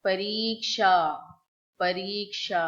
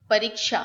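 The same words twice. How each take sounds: First: परीक्षा with a crisp क्ष cluster and long final aa; correct pronunciation. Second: परीक्षा said carelessly, the wrong way; wrong pronunciation. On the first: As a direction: say परीक्षा carefully, every sound in place. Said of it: "we have to say". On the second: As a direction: show how परीक्षा should not sound. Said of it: "it's not a परीक्षा". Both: Shown as a demonstration.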